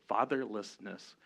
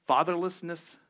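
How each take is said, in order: First: Fatherlessness said slowly, syllable by syllable; careful pronunciation. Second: Word pushed out high and loud; hard word. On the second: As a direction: punch the word Fatherlessness, higher and louder. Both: Shown as a demonstration. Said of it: "that's a hard word to say".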